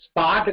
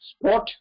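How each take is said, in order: First: The vowel is open and unrounded. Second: The vowel is said with rounded lips. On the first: The speaker calls it wrong. "ஸ்பாட் கிடையாது" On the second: The speaker calls it right. "Lips round பண்ணணும்"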